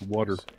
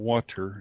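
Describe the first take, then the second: First: The middle consonant sounds like a D. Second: The middle consonant is a crisp T sound.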